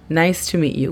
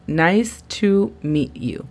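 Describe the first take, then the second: First: Said in the usual way. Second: "Nice to meet you" slowly, word by word; slow model phrase. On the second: Shown as a demonstration. Teacher models a greeting for learners, slow and separated.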